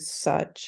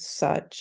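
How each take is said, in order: First: The vowel sounds like a 'u'. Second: The same.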